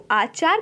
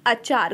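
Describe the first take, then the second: First: आचार with a long opening aa; overcorrect pronunciation. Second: Said in the usual way. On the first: Shown as a demonstration. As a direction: stretch the first vowel of आचार to "aa-chaar". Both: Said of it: "आचार को आचार कहते हैं".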